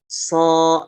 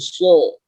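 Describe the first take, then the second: First: The sound is thin, with a flat tongue root. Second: The sound is thick, with a raised tongue root. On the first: The speaker calls it wrong. "Kalau pangkalnya datar, maka suara yang dihasilkan itu tipis" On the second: The speaker calls it right. "Kalau pangkal lidahnya dinaikkan, maka suaranya akan menggelembung"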